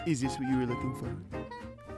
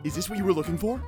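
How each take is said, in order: First: It is delivered in a sexy, sultry way. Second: It is delivered in a less sexy, plainer way.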